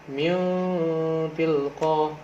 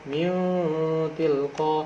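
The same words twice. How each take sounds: No difference in how they are said.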